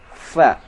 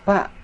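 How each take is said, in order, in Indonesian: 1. Diawali bunyi f yang berhembus. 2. Diawali bunyi p yang tertutup. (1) "Cara membaca huruf fa disertai keluarnya nafas" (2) "Tidak boleh membaca fa dengan bunyi pa"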